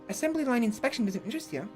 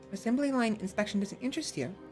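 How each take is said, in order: First: It is said at a faster pace. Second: It is said at a slower pace.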